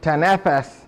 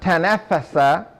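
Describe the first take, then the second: First: The word ends on a consonant, no final vowel. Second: The word ends with a short final vowel.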